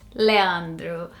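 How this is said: It is said with a Portuguese accent. This is how Brazilians say it. "which is how we would say it in Portuguese"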